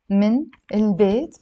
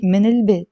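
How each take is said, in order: First: من, a short break, then البيت; separated words. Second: من البيت joined as minil-beit; no break between من and البيت; liaison. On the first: Teacher leading learners to say it along, unlinked. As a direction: say من and البيت apart, word by word. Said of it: "But pronounce it with a liaison". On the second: Teacher telling learners to say it linked, with liaison. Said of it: "pronounce it with a liaison". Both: Shown as a demonstration.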